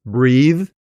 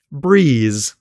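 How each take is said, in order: First: "Breathe" ending with tongue tip between the teeth; voiced th ending. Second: "breeze" ending on a buzzing z, tongue behind the teeth; voiced z ending. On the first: Teacher showing a common confusion, "Breathe" with voiced th. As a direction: end "Breathe" on a voiced th instead of z. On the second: Teacher contrasting z with th, "breeze" with voiced z. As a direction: finish "breeze" with a clear z instead of th. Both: Shown as a demonstration. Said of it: "tip of the tongue between the teeth".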